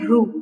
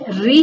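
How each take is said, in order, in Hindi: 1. यह अक्षर 'oo' स्वर के साथ बोला जाता है। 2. यह अक्षर 'ee' स्वर के साथ बोला जाता है। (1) "ना कि रू। रू माने वो तो तेलुगु में होता है" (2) "इसका प्रोनाउंसिएशन री होता है"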